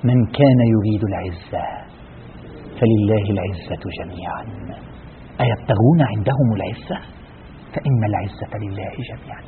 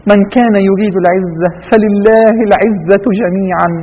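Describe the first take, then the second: First: Slow, low, soft verse recitation; hushed recitation. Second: Slow, full-voiced verse recitation; Quranic recitation. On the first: Preacher reciting verses after exposing false honour, hushed recitation. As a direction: recite it slowly, sinking almost to a hush. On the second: Preacher reciting a verse on honour to listeners, measured recitation. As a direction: recite the verse slowly, drawing out the vowels. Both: Real, not acted.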